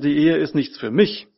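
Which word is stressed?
mich. The stress falls on the word mich. Marriage is about the other person, not oneself. The speaker calls it right. "die Betonung muss heißen"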